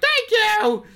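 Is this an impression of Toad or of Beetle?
Toad. It is said in a Toad impression voice.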